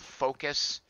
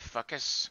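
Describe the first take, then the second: First: The first syllable sounds like a harmless word. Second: The first syllable sounds like a swear word. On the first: The speaker calls it right. "It's called Focus" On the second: The speaker calls it wrong. "sounds like you're dropping an F bomb"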